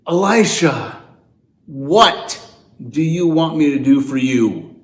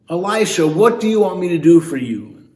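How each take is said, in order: First: It is said with exasperation and frustration. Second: It is said in a neutral, plain tone.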